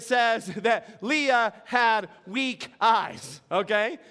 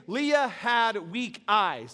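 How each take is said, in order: First: Laughing. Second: Slow quoted phrase. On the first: Real, not acted. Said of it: "that was fun". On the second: Shown as a demonstration. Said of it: "this phrase".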